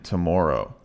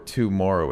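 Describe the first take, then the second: First: The first syllable is reduced to a quick 't'. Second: The first syllable has a full 'too' vowel. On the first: The speaker calls it right. "it's today and tomorrow" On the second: The speaker calls it wrong. "you don't hear today or tomorrow"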